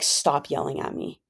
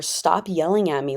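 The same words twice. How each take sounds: First: Whispered mock of the ex, softer. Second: Said in the usual way. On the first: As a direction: hiss it like an annoyed partner. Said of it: "my ex would be like". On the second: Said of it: "my ex was always like".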